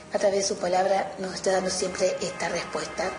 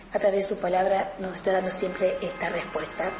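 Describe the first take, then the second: No difference in how they are said.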